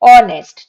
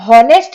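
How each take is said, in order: First: The word begins with a vowel sound. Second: The word begins with an h sound. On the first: The speaker calls it right. "तो क्या sound आ रहा है अ का" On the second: The speaker calls it wrong. "ये हॉनेस्ट नहीं कहलाता है"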